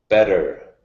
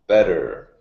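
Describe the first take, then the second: Both takes have the same delivery.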